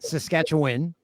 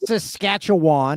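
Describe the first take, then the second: First: The last syllable sounds like 'win', said quickly. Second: The last syllable sounds like 'wan'. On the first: The speaker calls it right. "you say win at the end" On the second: The speaker calls it wrong. "it's not"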